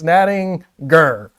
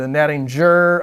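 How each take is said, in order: First: The g is pronounced hard, as in go. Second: The g is pronounced soft, as in gem. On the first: The speaker calls it right. "Hard G in that one" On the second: The speaker calls it wrong. "don't don't do the the Nattinger"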